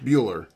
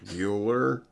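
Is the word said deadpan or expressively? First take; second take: expressively; deadpan. First: The word is said with lively, expressive intonation. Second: The word is said flat and deadpan. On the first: The speaker calls it wrong. "you don't read it like Bueller" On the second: The speaker calls it right. "You read it like Bueller"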